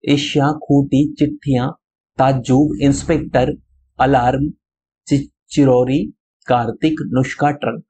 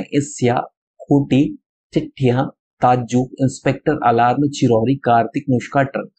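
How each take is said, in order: First: Each word spelled out slowly, एशिया, खूंटी, चिट्ठियां, every sound clear; slow careful pronunciation. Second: एशिया, खूंटी, चिट्ठियां read at normal pace, clearly but without lingering; brisk repeat reading. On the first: Teacher reads the words slowly for pupils to repeat, careful pronunciation. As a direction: read the word list slowly so children can copy each sound. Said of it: "मेरे साथ आपको दोहराना है, देखिए पढ़ना है".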